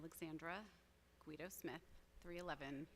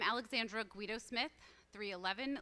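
First: It is spoken in a softer, everyday voice. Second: It is spoken in a louder, projecting voice. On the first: "I'm not using my teacher voice" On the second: "Use my teacher voice"

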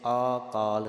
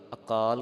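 First: The first vowel is long. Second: The first vowel is short. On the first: The speaker calls it wrong. "ਕਿਸੇ ਨੇ ਆਕਾਲ ਨਹੀਂ ਕਰ ਦੇਣਾ" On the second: The speaker calls it right. "ਐੜੇ ਨੂੰ ਕੰਨਾ ਨਹੀਂ ਲਾਉਣਾ, ਕੱਕੇ ਨੂੰ ਕੰਨਾ ਲਾਉਣਾ ਹੈ"

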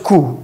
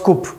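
First: The word is said with no p sound. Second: The word is said with a p sound. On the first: The speaker calls it right. "you call it coup" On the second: The speaker calls it wrong. "not coup"

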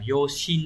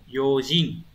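First: The second syllable starts with an 'sh' sound. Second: The second syllable starts with a 'j' sound. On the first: The speaker calls it wrong. "từ này không phải đọc là yoshin đâu" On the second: The speaker calls it right. "Cái này nó sẽ biến ra một chút yojin"

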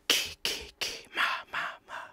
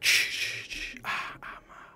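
First: The syllables start with clear k and m sounds. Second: The syllables start with hushed sh sounds. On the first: This is how the sound is meant to go. The speaker calls it right. "the fact that ki, ki, ki, ma, ma, ma" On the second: This is how the recorded sound actually comes out. The speaker calls it wrong. "comes out as like"

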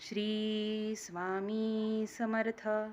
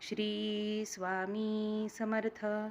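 Both takes have the same delivery.

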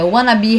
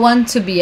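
First: Want to is blended into one word, wanna. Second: Want to is said as two full words. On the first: The speaker calls it right. "é wanna be happy" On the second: The speaker calls it wrong. "Ela não fala want to be"

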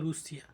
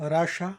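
First: It is said in a Russian way, as 'Rushia'. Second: It is said in an American way, as 'Rasha'. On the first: This is how Russians say their country's name. "রাশিয়ানরা বলে নিজেদেরকে রুশিয়া" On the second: This is how Americans say the name. "আমেরিকানরা বলে রাশা"

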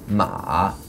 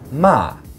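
First: The pitch dips low then comes up. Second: The pitch starts high and falls sharply. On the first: It means horse. "sort of a low tone. It dips down and then comes up" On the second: It means to scold. "fourth tone. It starts high and it falls"

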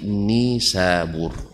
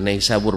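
First: The first syllable has a plain 'i' vowel. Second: The first syllable has the diphthong 'ai'. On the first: The speaker calls it right. "tapi Nisabur" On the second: The speaker calls it wrong. "bahkan bukan Naisabur bacanya"

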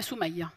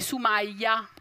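First: The name is said without the open vowel. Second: The name is said with an open vowel. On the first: This is the speaker's real name. The speaker calls it right. "Ma il mio nome è" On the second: This is how everyone else says the name. The speaker calls it wrong. "con la bella aperta"

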